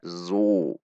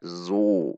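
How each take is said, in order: First: The z sound is thin and light. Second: The z sound is thin and light.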